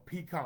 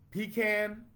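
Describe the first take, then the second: First: Pecan as pee-KAHN with an open 'ah'; pee-KAHN pronunciation. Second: Pecan as pee-CAN, pitched up; pee-CAN pronunciation. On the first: Host repeats the second choice for viewers, pee-KAHN. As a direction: say pecan ending like 'con'. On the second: Host repeats the first choice for viewers, pee-CAN. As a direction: say Pecan with a final 'can' as in tin can. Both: Shown as a demonstration. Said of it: "I'm putting it out there".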